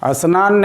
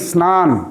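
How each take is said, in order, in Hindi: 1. s से पहले एक छोटा स्वर जोड़ा जाता है। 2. शब्द सीधे s ध्वनि से शुरू होता है। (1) "स्नान नहीं" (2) "शुद्ध उच्चारण है"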